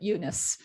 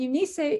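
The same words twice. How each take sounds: First: The name is said with a local anglicized pronunciation. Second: The name is said with a Greek-style pronunciation. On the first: This is how locals actually say it. The speaker calls it right. "but we call it Eunice" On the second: This is how an outsider would say it. The speaker calls it wrong. "is really just the Greek pronunciation"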